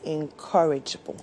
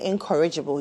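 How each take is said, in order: First: The stress is on the second syllable. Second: The stress is not on the second syllable. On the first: The speaker calls it right. "It is incorrigible" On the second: The speaker calls it wrong. "those of you who say incorrigible"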